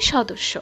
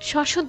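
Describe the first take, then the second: First: The middle consonants are said crisply as 'dossho'. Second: The middle sounds slur into a 'shuddho' ending. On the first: The speaker calls it right. "হবে সদস্য" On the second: The speaker calls it wrong. "সশুদ্ধ না"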